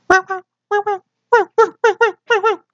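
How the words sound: A high-pitched small dog bark.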